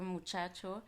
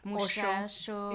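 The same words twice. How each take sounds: First: The ch sounds are a standard 'ch'. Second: The ch sounds are a Chihuahua-style 'sh'.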